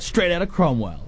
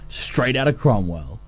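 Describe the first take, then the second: First: "Straight Outta Cromwell" punched hard, high; punchy. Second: Said in the usual way. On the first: Shown as a demonstration. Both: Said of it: "really punchy".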